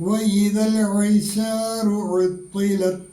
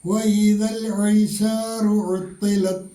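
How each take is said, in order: No difference in how they are said.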